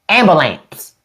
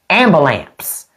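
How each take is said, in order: The two takes are said the same way.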